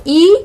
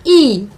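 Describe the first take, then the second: First: ई cut short; short vowel ई. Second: ई held long; long vowel ई. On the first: Teacher drilling short against long, short ई. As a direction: say ई as a brief vowel. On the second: Teacher drilling short against long, long ई. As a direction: stretch ई out. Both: Shown as a demonstration. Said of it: "इस तरह से इनका हमें उच्चारण".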